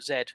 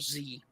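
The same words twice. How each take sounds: First: The letter is said the British way, 'zed'. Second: The letter is said the American way, 'zee'.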